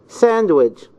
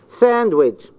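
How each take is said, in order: Both takes have the same delivery.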